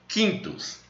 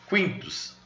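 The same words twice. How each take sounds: First: The U after the Q is silent. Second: The U after the Q is pronounced. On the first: The speaker calls it wrong. "se a gente fosse pronunciar como fosse o português" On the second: The speaker calls it right. "Mas no latim se pronuncia o U e o I"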